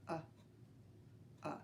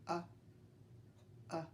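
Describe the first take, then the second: Both takes have the same delivery.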